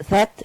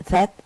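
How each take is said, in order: The two takes are said the same way.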